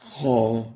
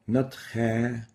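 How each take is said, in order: First: The kh sound is heavy and velarized. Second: The kh sound is light, not velarized. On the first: The speaker calls it right. "Make sure to give the kha its tafkhim" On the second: The speaker calls it wrong. "without tafkhim"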